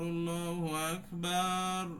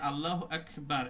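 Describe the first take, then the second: First: The final vowel in Akbar is drawn out long. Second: The final vowel in Akbar is short. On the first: Allah is the biggest drum. The speaker calls it wrong. "এই যে বাতে টান দিয়ে ফেলে এক আলি তিন আলিফের টান মতো" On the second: Allah is the greatest. The speaker calls it right. "এই আকবারে কোনো টান নাই"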